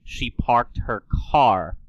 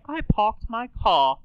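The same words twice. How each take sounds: First: "parked her car" with every R sounded; R's pronounced. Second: High, slow British accent, R's dropped; Queen Elizabeth. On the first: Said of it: "Queen Elizabeth doesn't say". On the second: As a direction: put on a regal British accent without R's. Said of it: "She would say". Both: Shown as a demonstration.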